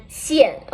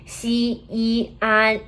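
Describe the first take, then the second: First: "xian" as one falling syllable; teacher's joined-up "xian" with a fall; fourth tone. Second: "Xi, yi, an" as three level, separate syllables; teacher's part-by-part "Xi, yi, an"; separated pinyin parts. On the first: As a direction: blend "xian" and drop the pitch. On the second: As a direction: sound out "Xi", "yi", "an" in turn. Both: Shown as a demonstration. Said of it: "the fourth tone".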